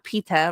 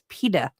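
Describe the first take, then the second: First: The name is said with a British pronunciation. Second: The name is said with a non-British pronunciation. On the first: The speaker calls it wrong. "It's not PETA, like British" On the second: The speaker calls it right. "It's PETA"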